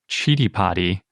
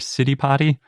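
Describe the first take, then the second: First: The name begins with a ch sound. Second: The name begins with an s sound. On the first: The speaker calls it right. "the correct way to say it" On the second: The speaker calls it wrong. "and not Siddipati"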